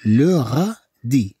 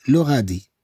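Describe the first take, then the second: First: "لو غادي" stretched syllable by syllable; slow pronunciation model. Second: Said in the usual way. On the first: Shown as a demonstration. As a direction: linger on every syllable of "لو غادي". Slow take for learners.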